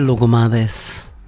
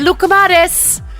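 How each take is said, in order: First: It is said with the voice dropped low. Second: It is said at a normal voice pitch. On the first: The speaker calls it right. "it sounds better when you go" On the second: The speaker calls it wrong. "you could say"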